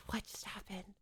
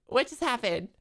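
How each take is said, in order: First: Whispered, much softer, in disbelief; hushed shocked whisper; stunned whisper. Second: Said in the usual way. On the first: Real, not acted. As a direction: breathe it out, dazed. Repeats in confusion.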